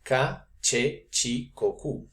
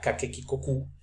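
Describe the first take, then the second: First: The middle syllables start with a ch sound. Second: Every syllable starts with a hard k sound. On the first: This is the later medieval way. "ahora se va a decir" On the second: This is the older classical way. "En el latín clásico"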